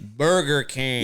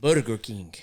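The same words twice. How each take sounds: First: "Burger King" in drawn-out American English. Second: "Burger King" with tapped Spanish R, lower; Spanish accent. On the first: Co-host imitating the ad's insert, slow American accent. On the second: Co-host demonstrating the brand name, low Spanish accent. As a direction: put a thick Spanish accent on it. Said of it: "they should say Burger King in the accent". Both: Shown as a demonstration.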